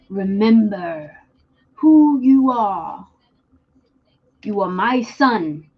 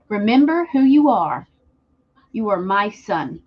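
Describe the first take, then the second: First: It is said imitating the character's voice. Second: It is said in his normal voice.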